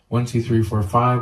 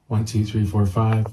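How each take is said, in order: First: The voice has boosted midrange and sounds harsh. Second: The voice has no equalizer boost and sounds natural. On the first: "Let's try the mid so you can hear that" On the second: "I'll just bypass it"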